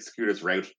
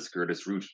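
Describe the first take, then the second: First: "Route" rhyming with "out"; American "Route". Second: "Route" sounding like "root"; English "Route". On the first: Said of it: "American Magic players say route". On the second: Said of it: "the English pronunciation is route". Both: Shown as a demonstration.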